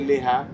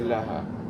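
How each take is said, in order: First: The first vowel is an 'i' sound. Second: The first vowel is an 'a' sound. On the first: The speaker calls it wrong. "they don't say liha" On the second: The speaker calls it right. "they say laha"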